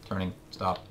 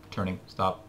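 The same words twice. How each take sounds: The two takes are said the same way.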